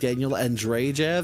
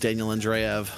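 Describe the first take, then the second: First: A J sound is pronounced in the surname. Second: No J sound is pronounced in the surname. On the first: The speaker calls it wrong. "I kept saying Daniel Andrejev" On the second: The speaker calls it right. "you do not pronounce that second J"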